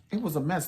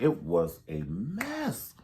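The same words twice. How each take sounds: First: It was a mess jumped up high; high, exasperated repeat; pitched up. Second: Slow, stretched-out It was a mess; a long, lingering it was a mess; drawn out. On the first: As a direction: throw it up high in disbelief. Repeating her point, pitched up. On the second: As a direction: let each word sag slowly. Repeating her point, drawn out. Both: Real, not acted.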